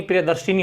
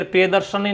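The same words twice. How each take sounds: First: प्रियदर्शिनी with "shini" at the end; correct form प्रियदर्शिनी. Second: प्रियदर्शनी with "shani" at the end; wrong form प्रियदर्शनी. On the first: Teacher giving the right form, प्रियदर्शिनी ending "shini". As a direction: use an "i" after sh in प्रियदर्शिनी. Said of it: "प्रियदर्शिनी होता है". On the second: Teacher rejecting a form, प्रियदर्शनी ending "shani". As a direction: use an "a" after sh in प्रियदर्शनी. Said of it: "प्रियदर्शनी नहीं". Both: Shown as a demonstration.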